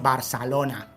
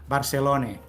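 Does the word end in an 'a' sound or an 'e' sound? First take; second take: a; e. First: The final vowel sounds like an open 'a'. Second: The final vowel sounds like an 'e'. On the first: It is how people from Barcelona say it. "los de Barcelona hablamos con la A" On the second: It is how people from Lleida say it. "los de Lleida dirían Barcelone"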